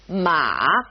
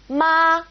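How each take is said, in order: First: It is said with the third tone. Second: It is said with the first tone. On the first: "third tone" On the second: "We've got our first tone"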